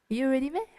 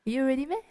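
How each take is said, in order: First: The middle words are slurred together and barely heard. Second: The same.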